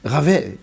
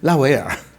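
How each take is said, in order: First: The name is said with French sounds. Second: The name is said with Chinese syllables. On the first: The speaker calls it right. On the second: The speaker calls it wrong.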